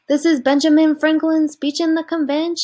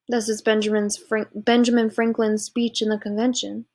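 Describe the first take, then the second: First: The sentence is said in a light tone. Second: The sentence is said in a serious tone.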